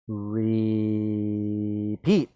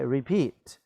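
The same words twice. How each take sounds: First: "repeat" with a long drawn-out first syllable; sounded out. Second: Said in the usual way. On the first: Shown as a demonstration. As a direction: stretch "re", then land "peat". Sounding out the answer word.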